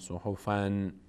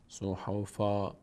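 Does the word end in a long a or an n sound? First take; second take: n sound; long a. First: The word ends with an n sound. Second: The word ends with a long a vowel. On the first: The speaker calls it wrong. "نباید بگیم صحفن" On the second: The speaker calls it right. "اگر وایستادید شما باید بگیم صحفا"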